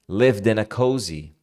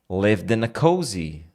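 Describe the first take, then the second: The two takes are said the same way.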